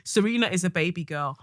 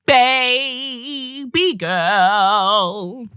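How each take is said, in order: First: Said in the usual way. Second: Drawn-out echo. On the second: Real, not acted. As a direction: stretch it out lovingly and loud. Echoes the letter, drawn out.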